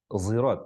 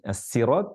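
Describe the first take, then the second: First: The first sound is a heavy z-like sound. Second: The first sound is a light plain s. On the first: "ada pakai zi" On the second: "ada yang baca pakai sin"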